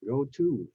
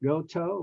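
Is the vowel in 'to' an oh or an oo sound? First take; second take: oo; oh. First: The word 'to' has an oo vowel. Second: The word 'to' rhymes with 'go'. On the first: The speaker calls it right. "but go to" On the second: The speaker calls it wrong. "It's not go to"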